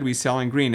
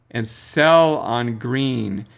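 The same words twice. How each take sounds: First: Said in the usual way. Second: And sell on green very slow with sell stressed; slow mantra. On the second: Shown as a demonstration. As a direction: drag sell on green out like a rule. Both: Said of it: "learn this".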